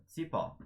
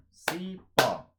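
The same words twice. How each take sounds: First: Said in the usual way. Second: Cipó split into CI and PÓ, slow and loud; clap-along syllable count on Cipó. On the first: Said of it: "então você conta". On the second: Shown as a demonstration. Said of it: "conto as sílabas batendo palma".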